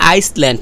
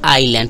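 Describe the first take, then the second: First: An s sound is heard after the first vowel. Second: No s sound is heard after the first vowel. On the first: The speaker calls it wrong. "এখানে এটা আইসল্যান্ড না" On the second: The speaker calls it right. "এটা হচ্ছে আইল্যান্ড"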